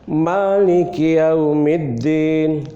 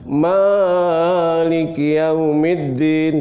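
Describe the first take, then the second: First: The first vowel is held only briefly. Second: The first vowel is stretched out very long. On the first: The speaker calls it right. "Cukup dua harokat saja" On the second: The speaker calls it wrong. "tidak boleh ya"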